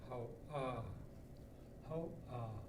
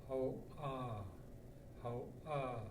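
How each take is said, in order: No difference in how they are said.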